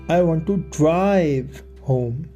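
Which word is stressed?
drive. The word "drive" is stressed. The speaker wants to take the car, not a taxi. "I want to take the car, not get a taxi"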